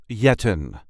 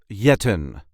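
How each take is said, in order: No difference in how they are said.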